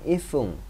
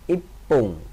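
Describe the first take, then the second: First: It is said with an f sound. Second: It is said with a doubled p sound. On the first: The speaker calls it wrong. "bukan ifung" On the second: The speaker calls it right. "satu menit berarti ipung"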